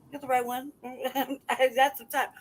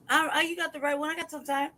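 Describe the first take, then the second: First: Laughing. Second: Said in the usual way. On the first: Real, not acted. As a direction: chuckle the words out at half speed. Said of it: "repeats the boast, laughing". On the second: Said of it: "repeats the boast, then laughing".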